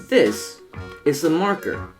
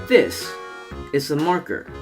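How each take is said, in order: Both takes have the same delivery.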